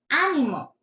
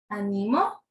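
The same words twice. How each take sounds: First: The stress is on the first syllable. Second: The stress is on the middle syllable.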